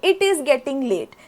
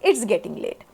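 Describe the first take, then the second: First: It is said as two separate full words. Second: It is said as one short contracted word. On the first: "च्या ऐवजी" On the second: "मी म्हणते इट्स getting late"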